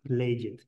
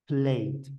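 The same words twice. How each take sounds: First: The ending is an added separate syllable. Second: The ending is a short d sound. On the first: The speaker calls it wrong. "Nunca va a sonar played" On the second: The speaker calls it right. "Suena una D"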